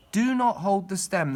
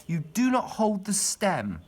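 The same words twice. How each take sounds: First: Louder and slower, "not" hammered; stress on not. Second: "not" stressed, slow and louder; slow down and hit "not" in "you do not hold the stem". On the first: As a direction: repeat it firmly, leaning hard on "not". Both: Shown as a demonstration.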